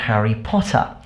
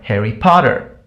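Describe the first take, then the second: First: It has an English accent without the final R. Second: It has an American accent with the final R. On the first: "people in England, they say" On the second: "Whereas people in America, they say"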